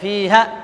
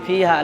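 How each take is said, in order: First: The final vowel is cut short. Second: The final vowel is drawn out long. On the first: The speaker calls it wrong. "এরকম হবে না" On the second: The speaker calls it right. "টানতে হবে"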